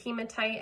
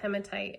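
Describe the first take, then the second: First: The start sounds like the start of hemoglobin. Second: The start does not sound like hemoglobin's start. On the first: "some people do pronounce it hematite, I think because it sounds like hemoglobin" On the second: "I was taught hematite"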